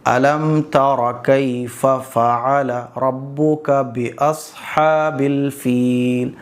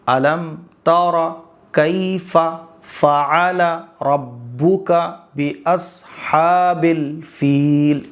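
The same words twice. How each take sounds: First: The words are read at moderate speed. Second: Each word is read slowly and separately. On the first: "थोड़ा सा स्पीड बढ़ा दो।" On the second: "आपको आराम से पढ़ना है। एक एक लफ्ज़।"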